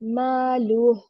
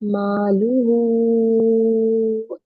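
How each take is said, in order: First: The word ends abruptly with no final vowel. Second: The final vowel is held long for several counts. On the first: The reader stops at this word. "हमेशा साकिन में कन्वर्ट करके पढ़ेंगे" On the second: The reader continues on to the next word. "हम इसको मद के साथ पढ़ेंगे, फोर टू फाइव काउंट"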